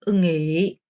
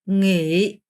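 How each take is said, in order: No difference in how they are said.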